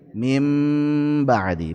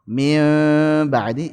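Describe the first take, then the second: First: The n is changed into an m sound. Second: The n is hidden, lightly nasalized. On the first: The speaker calls it right. "Diubah jadi mim" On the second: The speaker calls it wrong.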